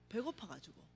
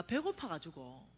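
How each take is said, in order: First: 배고파가지고 repeated much softer, falling away; quiet repeat of 배고파가지고; soft echo. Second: Said in the usual way. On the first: Real, not acted. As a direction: let the repeat of 배고파가지고 fade to a murmur.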